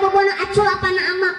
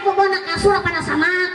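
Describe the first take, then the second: First: The consonants are lisped and dropped, babyish. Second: The consonants are pronounced fully and clearly.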